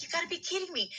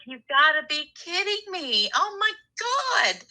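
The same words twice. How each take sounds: First: High and much softer, half to herself; hushed disbelief. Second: High, near-tearful wail of disbelief; exasperated disbelief. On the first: Caller retelling news about her ex, high hushed disbelief. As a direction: breathe it out, stunned and drained. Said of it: "It's like". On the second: Caller hears ex's boss offered him a job in her new town, high tearful wail. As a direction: cry it out like you can't believe your luck. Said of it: "And I was like". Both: Retold or imitated.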